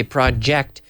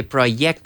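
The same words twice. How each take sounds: First: "project" with a voiced J sound; correct pronunciation. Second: "project" with a Y sound, "proyect"; wrong pronunciation. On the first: Teacher modeling the right "project". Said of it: "we say project". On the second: Teacher showing the mistake in "project". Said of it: "We don't say project". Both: Shown as a demonstration.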